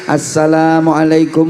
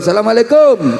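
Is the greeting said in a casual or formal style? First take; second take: formal; casual. First: It is said in a formal, ceremonial style. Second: It is said in a casual, relaxed style. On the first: It is a greeting to open an official event. "Kalau M C ya kayak tadi" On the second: It is a greeting to a friend met by chance. "itu salamnya nggak kayak M C"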